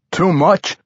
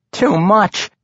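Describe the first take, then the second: First: High, alarmed query; frantic question. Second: High-pitched halfling lament. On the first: Barbarian questioning halfling as door bangs open, frantic. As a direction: ask it urgently, voice lifted. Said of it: "Wulfgar asked frantically". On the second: Halfling who dumped the whole vial, lamenting. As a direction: lament an overdone mistake, voice lifted. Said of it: "Regis lamented". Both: A narrator's reading.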